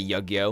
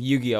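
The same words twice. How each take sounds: First: The word is said with a distorted pronunciation. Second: The word is said with its usual pronunciation. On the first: The speaker calls it wrong. "I'll say Yu-Gi-Oh" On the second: The speaker calls it right. "instead of Yu-Gi-Oh"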